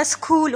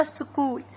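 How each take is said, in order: First: स्कूल with the normally silent H voiced as "s-khool"; H sounded. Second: Said in the usual way. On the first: Shown as a demonstration. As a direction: say स्कूल with a breath of H after the K. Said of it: "एच की हा sound नहीं है यहाँ पे". (स्कूल में ह की आवाज़ के साथ "स्खूल") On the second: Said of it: "silent होगी, ये होगा".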